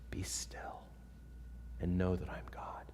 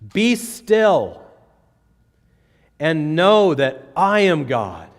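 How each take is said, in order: First: It is said softly and devotionally. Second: It is said as a forceful command.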